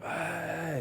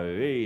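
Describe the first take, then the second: First: Higher, a mock crowd cheer; lightly imitated crowd, much higher; crowd roar imitation. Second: Said in the usual way. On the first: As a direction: echo it back like a whole audience. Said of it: "and everyone went". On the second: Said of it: "You just come on and go".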